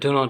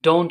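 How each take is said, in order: First: It is said as two full words. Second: It is said as one contracted word. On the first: "এটা do not ই হবে" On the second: "short করে লেখেন, তখন উচ্চারণটা কি হবে? don't হবে"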